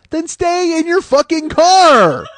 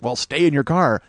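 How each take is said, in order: First: Higher, louder and slow, yelling each word; furious shout. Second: Said in the usual way. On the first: Real, not acted. Ranting at the shooter to stay in his car, furious shout. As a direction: hammer it home like a furious order. Shouting the cops' advice back.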